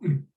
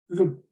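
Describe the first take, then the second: First: The th sound is dropped entirely. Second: The word has a weak, reduced vowel. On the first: "an occasional weak form" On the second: "It also has weak forms"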